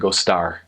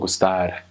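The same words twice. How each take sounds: First: The R is a smooth American-style R. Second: The R is a single quick tongue tap. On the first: "if I was American, I'd say gostar" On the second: "it's just like rolling your tongue, but one time"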